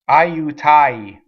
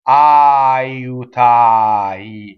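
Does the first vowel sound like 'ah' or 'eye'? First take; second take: eye; ah. First: The first vowel is a gliding 'eye' sound. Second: The first vowel is a plain open 'ah'. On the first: The speaker calls it wrong. "we go I. ... Uh-uh" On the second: The speaker calls it right. "So it's ah, ah"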